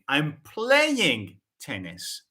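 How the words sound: The stress is on the word playing. I am playing it, not watching it. "I'm shifting the focus on the verb play"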